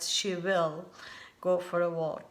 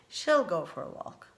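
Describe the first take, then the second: First: The word will is said in full. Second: Will is shortened and joined onto she. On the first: The speaker calls it wrong. "actually we don't say that" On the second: The speaker calls it right. "We say she'll go for a walk"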